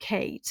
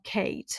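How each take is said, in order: First: The vowel sounds like the one in late. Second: The same.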